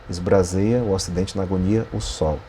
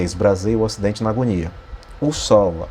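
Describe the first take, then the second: First: The phrase runs on through "o sol" without stopping. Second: A pause comes after "agonia", separating "o sol". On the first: The speaker calls it right. "a leitura vai para além do fim da- do, do verso" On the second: The speaker calls it wrong. "Você não lê"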